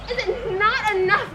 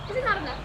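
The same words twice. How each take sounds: First: Louder, stress on not; indignant repeat. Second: Said in the usual way. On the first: Acted. Helena repeats it to Lysander, louder and indignant. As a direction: throw it back at him hurt and angry.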